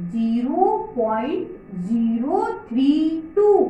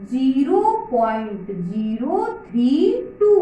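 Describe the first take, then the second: First: Slow, every digit after point read on its own. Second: Said in the usual way. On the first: Shown as a demonstration. Teacher modelling how to read a decimal for children, slow and clear. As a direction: read zero point zero three टू slowly, digit by digit, never thirty टू. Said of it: "पीछे वाले single पढ़ना है". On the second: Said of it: "क्या पढ़ोगे?".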